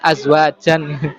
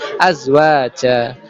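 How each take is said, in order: First: The word ends with an n sound. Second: The word ends on an open vowel. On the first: It is read without the rules of recitation. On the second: It is read following the rules of recitation.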